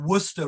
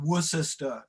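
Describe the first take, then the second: First: Some syllables are swallowed and shortened. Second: Every syllable is pronounced in full. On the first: This is the usual British way. "or Worcester rather than" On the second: This is not the usual British way. "rather than Worcester"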